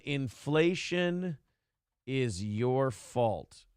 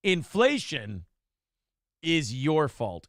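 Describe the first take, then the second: First: Very slow, softer, lower ominous reading of "inflation is your fault". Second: Slow, measured reading of "inflation is your fault" at normal level; deliberate title read. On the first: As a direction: drag out "inflation is your fault" like a dire verdict, low and soft. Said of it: "rereads title, slower and hushed". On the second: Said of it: "first, less drawn-out read of title". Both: Shown as a demonstration.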